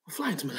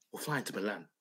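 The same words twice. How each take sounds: First: Said in the usual way. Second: A hushed, breathy whisper, like a secret plan. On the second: Acted. Telling Pete the Milan trip plan, whispered. Dreaming of Inter winning.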